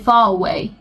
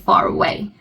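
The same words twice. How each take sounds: First: No R sound is heard between the words. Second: An R sound links the two words. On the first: The speaker calls it wrong. "You cannot say far away" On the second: The speaker calls it right. "so you have to say far away"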